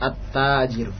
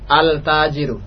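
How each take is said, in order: First: The l merges into a doubled t sound. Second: The l is clearly pronounced before the t. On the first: The speaker calls it right. "lamnya dimasukkan ke huruf setelahnya" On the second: The speaker calls it wrong. "tidak antum baca al-tajiru ... hadha khata"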